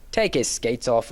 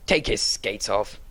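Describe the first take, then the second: First: Low, firm repeated order. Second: Low, slow stern command. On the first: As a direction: say it again, firmly, no argument. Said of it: "repeated Mister Pickwick firmly". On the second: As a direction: lay down the order gravely. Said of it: "said in a stern voice". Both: A narrator's reading.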